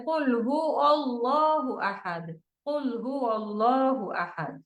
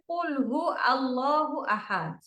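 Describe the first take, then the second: First: Slow, full হুয়া with the wa clearly sounded; slow careful কুল হুয়া আল্লাহু আহাদ, nothing dropped; correct recitation. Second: কুল হু run together, the wa of হুয়া dropped; কুল হু said as one word with the wa missing; common mistake. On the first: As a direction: separate কুল from হুয়া and give হুয়া both syllables. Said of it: "তো উচ্চারণটা কেমন হবে?". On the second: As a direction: clip হুয়া to হু and glide on into আল্লাহু. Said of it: "অনেকে পড়ে ফেলে". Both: Shown as a demonstration.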